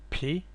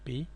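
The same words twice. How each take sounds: First: The P is said the English way. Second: The P is said the Greek way. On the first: The speaker calls it wrong. "not the P in English" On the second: The speaker calls it right. "just the P"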